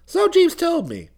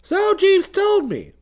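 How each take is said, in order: First: "Jeeves" lifted, slow and higher; mild stress on Jeeves. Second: "Jeeves" punched higher and louder, very slow; heavy stress on Jeeves. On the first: Bertie answers Bicky's news, stressing "Jeeves" slowly. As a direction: lean a little on "Jeeves", slowly. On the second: Bertie repeats himself to Bicky, weightier stress on "Jeeves". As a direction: hit "Jeeves" harder, drawn out. Repeated reply, more emphatic. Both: Acted.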